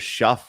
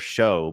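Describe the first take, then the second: First: The name ends with an f sound. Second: The name ends with a vowel sound. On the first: "it looks like it's either shuff" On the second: "or show"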